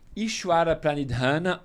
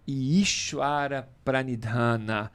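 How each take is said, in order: First: The term is pronounced in a plain, everyday way. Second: The term is pronounced in a more careful way.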